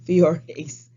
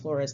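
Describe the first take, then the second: First: The name is said without an L sound. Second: The name is said with an L sound. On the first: The speaker calls it right. "That's Fiores" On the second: The speaker calls it wrong. "I've been saying Flores the whole time"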